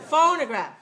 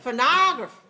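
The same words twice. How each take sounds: First: The stress is on the first syllable. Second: The stress is on the second syllable. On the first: "First one?" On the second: "Second one?"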